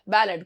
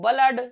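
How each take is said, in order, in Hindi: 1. पहला स्वर 'cat' जैसा बोला जाता है। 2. पहला स्वर 'cut' जैसा बोला जाता है।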